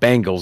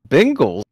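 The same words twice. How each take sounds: First: It sounds like the eighties pop group's name. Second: It sounds like the football team's name. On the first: The speaker calls it wrong. "not Bengals. Everybody says Bengals. It's Bengals is an eighties, you know, uh, all female pop group" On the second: The speaker calls it right. "Bengals football team"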